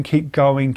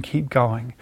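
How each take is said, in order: First: Said in the usual way. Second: Softer, lower, fading to nothing; trailing off softly. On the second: Shown as a demonstration. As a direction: let it fade out like running out of steam. Repeating keep going, fading out.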